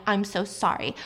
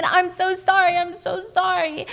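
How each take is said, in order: First: Understated retold tearful apology; retold crying. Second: High, raised, imitated wail of apology; screamed apology. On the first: Husband apologizing as she's dragged out, mildly tearful retelling. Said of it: "He just keeps crying". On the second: Husband screaming apology as wife is seized, imitated. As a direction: cry it out drawn and high, acting frantic. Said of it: "And he's screaming".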